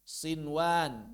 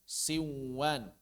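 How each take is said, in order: First: The n is pronounced clearly before the w. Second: The n merges into the w sound. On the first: The speaker calls it right. "Sinwan bukan siwan" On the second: The speaker calls it wrong. "bukan siwan"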